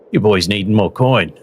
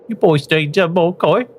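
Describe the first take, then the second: First: The put-on voice sounds less uppity. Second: The put-on voice sounds more uppity.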